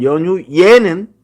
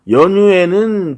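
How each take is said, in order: First: The final syllable adds a y-glide: 'ye'. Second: The final syllable is a plain 'e' vowel. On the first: The speaker calls it wrong. "연유예는 표준 발음이 아니야" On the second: The speaker calls it right. "연유에는 표준 발음이지만"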